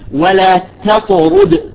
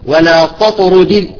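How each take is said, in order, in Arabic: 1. التاء خفيفة ومرققة، وليست مفخمة. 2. التاء ثقيلة ومفخمة، مثل ṭa. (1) "نخرج مثلا كلمة ولا تطرد" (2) "بعضهم يقول ولا تطرد، خطأ"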